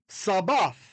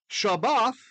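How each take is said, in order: First: The word begins with an 's' sound. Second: The word begins with a 'sh' sound. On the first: This is the form that came into English. "or a sin, a s sound" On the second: This is the original Aramaic form. "going from a sheen"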